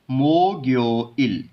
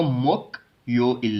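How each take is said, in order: First: मो ग्यो इल slowly, g starting ग्यो; linked reading. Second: मोक यो इल with k closing first syllable; मोक stopped on k, then यो इल; wrong unlinked reading. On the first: Teacher demonstrates the g sound, slow linked मो ग्यो इल. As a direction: open मो, then ग्यो इल with voiced g. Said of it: "ग की sound देगा इस rule के according". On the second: Teacher warns against this reading, unlinked मोक यो इल. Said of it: "नहीं पढ़ना". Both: Shown as a demonstration.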